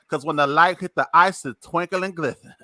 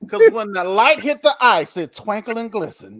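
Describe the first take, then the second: First: It is said with a lisp on the s sounds. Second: It is said in a plain voice without a lisp.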